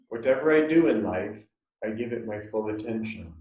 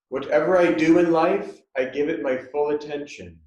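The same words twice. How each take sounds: First: It is spoken in a normal voice. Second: It is spoken in a loud voice. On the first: "in a normal voice" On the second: "first say this out loud"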